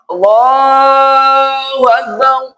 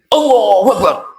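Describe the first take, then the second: First: It is said with a slightly slurred English accent. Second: It is said quickly with a Japanese accent. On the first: "Orang Inggris tetap sholatnya sama. ... Cuma agak celat" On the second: "Orang Jepang ... logatnya yang beda. Jepang kan cepat"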